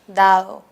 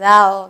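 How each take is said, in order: First: The second d is slightly softened. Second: The second d is reduced even further. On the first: "la segunda tiende a ser un poco más relajada" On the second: "Incluso podría decirse dado, ¿no? Algunos cuando hablan"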